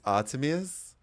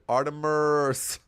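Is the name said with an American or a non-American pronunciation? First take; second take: non-American; American. First: The name is said with a non-American pronunciation. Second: The name is said with an American pronunciation. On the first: The speaker calls it right. "It's Artemis" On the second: The speaker calls it wrong. "the U S, it'll be like Artemis"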